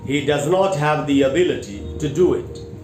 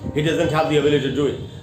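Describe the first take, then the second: First: It is said clearly and loudly at moderate speed. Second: It is said very fast and rushed. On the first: The speaker calls it right. "साफ सुथरे तरीके से ऊंची आवाज़ में sentence को बोला" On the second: The speaker calls it wrong. "बहुत तेज गति से इस बात को बोलूं"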